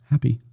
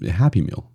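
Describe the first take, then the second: First: Happy said higher, set apart; stress on Happy. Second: Said in the usual way. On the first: Shown as a demonstration. Pointing out the word in Happy Meal, stress on Happy. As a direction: lift and hold Happy. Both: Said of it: "It's right in the name".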